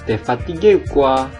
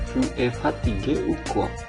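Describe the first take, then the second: First: Tu is shortened and joined to es. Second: Tu and es are said as separate words. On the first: It is casual spoken French. "kita sering menggabungkan" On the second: It is the standard full form.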